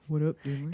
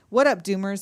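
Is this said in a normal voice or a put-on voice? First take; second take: put-on; normal. First: It is said in a put-on character voice. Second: It is read in the speaker's normal voice.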